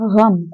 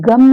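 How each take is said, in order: First: It starts with a throaty, rasping gh sound. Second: It starts with a plain hard g sound. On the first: The speaker calls it right. "इसे पढ़ेंगे गम" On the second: The speaker calls it wrong. "इसे गम नहीं पढ़ेंगे हम"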